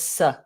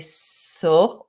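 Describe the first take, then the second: First: The syllable has a short reduced schwa vowel. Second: The syllable has a full rounded vowel. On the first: The speaker calls it right. "it's just s" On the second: The speaker calls it wrong. "we don't say so"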